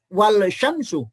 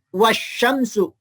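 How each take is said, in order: First: The l is clearly pronounced before the sh. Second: The l merges into a doubled sh. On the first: The speaker calls it wrong. "bukan wal syamsu" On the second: The speaker calls it right. "atau dibaca wasyamsu"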